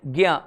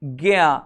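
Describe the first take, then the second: First: ज्ञा said as gya, a g plus ya; modern pronunciation. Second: ज्ञा drawn out slowly so the g and ya separate; slow motion. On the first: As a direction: read ज्ञा the way people say it today, gya. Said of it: "अपन क्या पढ़ रहे हैं". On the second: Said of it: "थोड़ा सा slow motion में सुने". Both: Shown as a demonstration.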